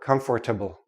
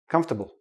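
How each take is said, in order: First: The word is said with all four syllables. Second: The word is squeezed into three syllables. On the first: The speaker calls it wrong. "No, don't do that" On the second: The speaker calls it right. "We say comf, ta, bull"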